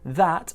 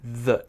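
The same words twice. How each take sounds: First: The word ends in a clearly released t. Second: The word is reduced and ends in a glottal stop. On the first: "that may just be" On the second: "with a kind of a the sound, uh, glottal stop through it"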